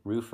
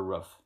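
First: "Roof" with the long oo of food; "Roof" as roof with a long vowel. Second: "roof" with a short vowel, like ruff; clipped-vowel regional "roof", as in ruff. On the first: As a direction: say "Roof" to rhyme with proof. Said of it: "That's another one. Roof or roof". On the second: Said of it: "My grandmother says roof". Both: Shown as a demonstration.

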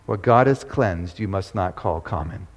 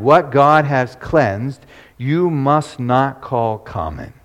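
First: Preacher echoes the verse to the congregation, low and soft; soft repeat. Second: Slow, solemn voice of God calling down; the heavenly voice speaks to Peter, slow and solemn. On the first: Real, not acted. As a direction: lower and softer, letting it sink in. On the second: A narrator's reading. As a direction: pronounce it slowly like a divine command. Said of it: "a voice spake to him".

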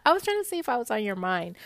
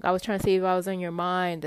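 First: Quick mocking echo of his words; rapid, ridiculing imitation; mocking quote. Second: Said in the usual way. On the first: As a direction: parrot it back fast, in disbelief. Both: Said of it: "who says that?".

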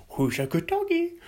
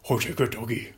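First: Put-on high baby-talk to dog. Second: Said in the usual way. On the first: Shown as a demonstration. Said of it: "repeated plain". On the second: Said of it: "repeated high".

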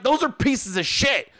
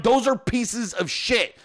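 First: Blunt retort at a normal pace, slightly raised pitch; retold blunt verdict. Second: Slow, word-by-word insistence; retold insistent repeat. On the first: Husband judging wife's new bookshelves, blunt retold retort. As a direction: state it bluntly, mimicking an argument. Retold argument with wife, first take. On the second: Husband insisting after wife denies it, slow emphatic retort. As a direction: spell it out slowly, mimicking an argument.

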